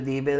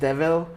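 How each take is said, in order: First: The middle consonant is a b sound. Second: The middle consonant is a v sound. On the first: "So it sounds like debil debil" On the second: "it's supposed to be like devil"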